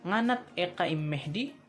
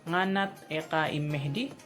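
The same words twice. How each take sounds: The two takes are said the same way.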